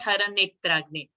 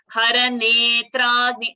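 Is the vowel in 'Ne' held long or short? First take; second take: short; long. First: The vowel in Ne is short. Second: The vowel in Ne is held long. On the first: The speaker calls it wrong. "It's not short" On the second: The speaker calls it right. "So Ne, I have paused extra"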